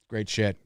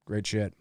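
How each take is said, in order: Both takes have the same delivery.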